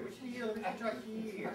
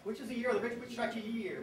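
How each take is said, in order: First: Rapid house finch mnemonic; said really fast. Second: Said in the usual way. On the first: Shown as a demonstration. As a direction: rattle the mnemonic off quickly. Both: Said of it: "So you gotta say it really fast".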